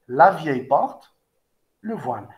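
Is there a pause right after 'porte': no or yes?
yes. There is a pause after 'porte'. An old door hides someone.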